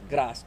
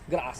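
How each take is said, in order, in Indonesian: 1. Diucapkan dengan aksen Jawa yang kental. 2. Diucapkan dengan aksen Inggris. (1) "kalau di kita itu Jawa medok" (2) "kalau di Inggris itu disebutnya grass"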